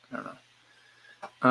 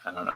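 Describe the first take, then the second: First: "I don't know" whispered very slowly, breath only; trailing whisper. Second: Said in the usual way. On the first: Real, not acted. Unsure runner drifting off, slow whisper.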